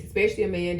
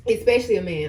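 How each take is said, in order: First: Said in the usual way. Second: ESPECIALLY pushed out firmly, ending on a fall; pointed emphasis. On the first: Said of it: "I don't know why I said it like that". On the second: Real, not acted. Vlogger repeating her warning about moving in, pointed emphasis. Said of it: "why I said it like that".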